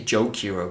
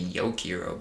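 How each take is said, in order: First: The word begins with a J sound. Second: The word begins with a Y sound. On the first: "I say Jokiro" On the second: "if it's like some European pronunciation, it would be Yokiro"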